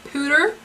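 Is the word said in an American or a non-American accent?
non-American. It is said in a non-American accent.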